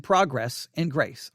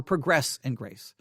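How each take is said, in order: First: Progress said PROG-ress, first syllable stressed; noun pronunciation. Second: Progress said pruh-GRESS, second syllable stressed; verb pronunciation. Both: Shown as a demonstration. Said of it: "I may have said it the wrong way".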